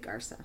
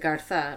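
First: The middle consonant sounds like z. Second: The middle consonant sounds like th. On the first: This is how people over there say the name. "there they would say Garza" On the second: This is how people here say the name. "here they would pronounce it Gartha"

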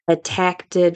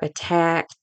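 First: It adds an extra T after the ending. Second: It ends with the ordinary past ending. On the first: "the intrusive T plus the past tense" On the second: "for attacked"

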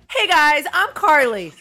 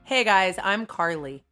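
First: The greeting is yelled loudly. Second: The greeting is said low and quiet. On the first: "Just stop yelling. Stop yelling" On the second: "I'm going to do it extra low"

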